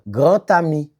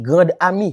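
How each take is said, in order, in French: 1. Les mots sont liés par un son T. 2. Les mots sont liés par un son D. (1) "on va entendre le son T" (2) "je pas dit grande ami"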